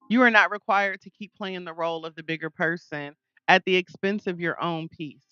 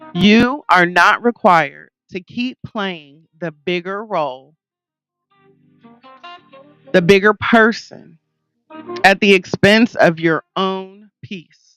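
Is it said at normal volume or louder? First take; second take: normal; louder. First: It is said at normal volume. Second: It is said louder than normal.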